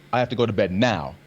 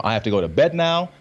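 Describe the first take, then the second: First: "go" stressed, "bed" left light. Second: "bed" lifted and leaned on; stress on bed. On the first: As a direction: push the word "go". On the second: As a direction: land the weight on "bed". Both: Shown as a demonstration. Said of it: "What's the operative word in that sentence".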